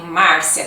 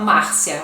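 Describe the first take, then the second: First: Márcia with a strong r, Marcia with the r sounded hard. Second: Márcia with the r softened almost away, Máhcia; soft r. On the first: Teacher giving her own way: Márcia with a strong r. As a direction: push the r in Márcia. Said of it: "com R forte". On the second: Teacher showing the Maranhão way: Márcia, soft r. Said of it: "um R mais suave". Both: Shown as a demonstration.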